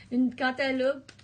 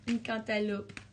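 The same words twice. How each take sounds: First: "Un cantaloupe" again, higher and louder, leaning on "Un"; loud playful repeat. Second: Said in the usual way. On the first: Shown as a demonstration. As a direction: punch "Un cantaloupe" out big and playful. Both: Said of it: "repeats the phrase louder".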